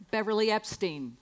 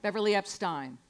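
First: Epstein said with "steen" at the end; Epstein pronounced. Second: Epstein said with "stine" rhyming with wine; Epstein corrected. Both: Shown as a demonstration. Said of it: "Stein, not Steen".

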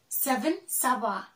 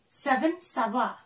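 The two takes are said the same way.

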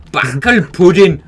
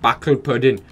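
First: Loud, slow, drawn-out exclamation; a slow, booming Backel pudding!; shouted with relish. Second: Said in the usual way. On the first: Shown as a demonstration. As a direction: belt the word out like a battle cry. Repeating the German word.

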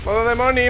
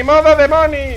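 First: Higher playful voice; Moni voice. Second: Very high, loud yelled chant; chanted, belt out the Moni mode; shouted Moni chant. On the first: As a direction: tease in a high voice. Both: Pretend.

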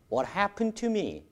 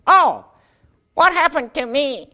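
First: Said in the usual way. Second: High, slow put-on student voice; Jack's puppet voice. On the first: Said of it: "틀린 말은 아니죠". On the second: Jack answers the teacher in his high put-on voice. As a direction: play Jack, stretched and high. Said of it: "잭 한번 만들어 보시죠".

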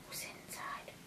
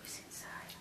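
First: Breathy suspense whisper. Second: Soft secret whisper. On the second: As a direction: hush it like a secret. Whispered again. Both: Acted.

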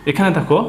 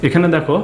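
Both takes have the same delivery.

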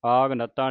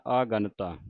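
First: ਆਗਨਤਾ run as aag-nataa; split after g. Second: ਆਗਨਤਾ said as aa-gantaa; split before g. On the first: Teacher showing students the mistake, ਆਗਨਤਾ as aag-nataa. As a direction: close the first syllable on g in ਆਗਨਤਾ. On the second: Teacher modelling it for students, ਆਗਨਤਾ as aa-gantaa. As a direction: let the g open the second syllable of ਆਗਨਤਾ. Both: Shown as a demonstration. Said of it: "ਆਗਨਤਾ ਨਹੀਂ ਕਹਿਣਾ".

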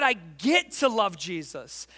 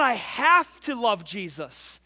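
First: "get" held long and punched; stress on GET. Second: Slow line with "have" drawn out and louder; stress on HAVE. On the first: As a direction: land hard on "get" and linger on it. Contrasting get to with have to. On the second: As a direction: lean slowly and hard on "have". Contrasting have to with get to. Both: Shown as a demonstration.

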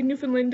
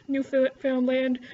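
First: "Newfoundland" run together as "NEW-fin-lind"; local contracted pronunciation. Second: "Newfoundland" said slowly as "new-found-land"; spelled-out pronunciation. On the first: A Canadian showing their own way, "Newfoundland" contracted to "Newfinlind". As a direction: reduce the middle and end of "Newfoundland" to short weak vowels. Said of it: "I'll say Newfoundland instead of Newfoundland".

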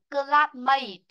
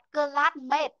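First: "Classmate" ending in a long "ay" glide, "klat-MAYT"; correct pronunciation. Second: "classmate" ending in a short "met", "klat-met"; mispronunciation. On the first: Teacher models the ay sound for the class, correct pronunciation. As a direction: model "Classmate" with "may" drawn out. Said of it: "Ở đây là âm ấy này". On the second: Teacher says not to read it like this, mispronunciation. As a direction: echo the error: "classmate" as "kla-lat-MET". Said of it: "not classmate". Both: Shown as a demonstration.

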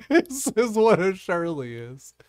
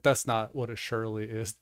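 First: High, loud, slow through real laughter; laughing. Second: Said in the usual way. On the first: Real, not acted. Host presents Bard's right answer, laughing. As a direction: crack up while announcing it.

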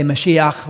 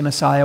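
First: Mashiach said the Hebrew way, ma-SHEE-akh; "Mashiach" as Hebrew speakers say it; Hebrew pronunciation. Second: Messiah said the English way, muh-SIGH-uh; "Messiah" as English speakers say it; English pronunciation. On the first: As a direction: say "Mashiach" with SHEE stressed and a throaty ending. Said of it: "They say Mashiach". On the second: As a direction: say "Messiah" with a long i in the middle. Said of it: "we say Messiah". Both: Shown as a demonstration.

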